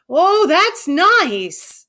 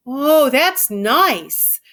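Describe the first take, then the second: First: Put-on higher, louder, very slow childlike delight; rapt Lenny. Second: Slow, drawn-out simple giant, pleased; dreamy Lenny. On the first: Lenny stroking harder, higher and more rapt. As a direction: lose yourself in the pleasure, stretching the oh. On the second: Lenny stroking her hair, slow and contented. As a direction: savour each word like a big child. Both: A narrator's reading.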